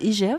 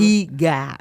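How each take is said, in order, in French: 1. On dit les noms des lettres à la française. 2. Il est prononcé avec des sons à la vietnamienne.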